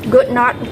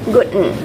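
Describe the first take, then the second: First: It is said as two full words. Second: It is contracted to one word.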